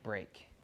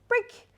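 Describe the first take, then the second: First: The word is said in a flat, neutral voice. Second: The word is said in a lively, excited voice. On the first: Nothing has changed; work continues. The speaker calls it wrong. "right now what you're doing" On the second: The work is over and it's time to play. The speaker calls it right. "motivation and uh, voice inflection to say, hey, party time"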